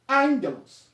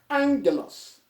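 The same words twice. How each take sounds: First: The double gamma is sounded as ng. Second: The same.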